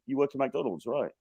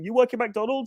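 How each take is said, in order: First: It sounds doubtful and skeptical. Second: It sounds gushing and enthusiastic.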